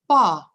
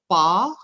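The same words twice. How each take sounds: First: The pitch falls across the word. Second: The pitch rises across the word. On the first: "which is falling tone" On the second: "which is mushroom, rising tone"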